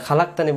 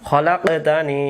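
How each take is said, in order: First: The opening kh sound is not articulated clearly. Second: The opening kh sound is articulated clearly. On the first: The speaker calls it wrong. "খালাক্তানি বললে এটাকে খ উচ্চারণ হয় না" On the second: The speaker calls it right. "এটা হবে খলাকতানি"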